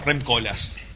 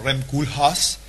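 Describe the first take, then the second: First: The name is pronounced the original, native way. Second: The name is pronounced the common, popular way. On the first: This is how the name really sounds. The speaker calls it right. "se llama Rem Koolhaas" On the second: This is how most people say it. The speaker calls it wrong. "todo el mundo dice Rem Koolhaas"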